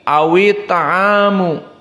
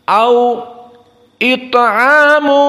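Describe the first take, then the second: First: The words run together without a glottal stop. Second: A short break comes before a glottal stop. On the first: "hamzahnya dibuang. Namun kasrohnya dipakai, dipindahkan kepada wawi" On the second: "berhenti dari waw pindah ke hamzah"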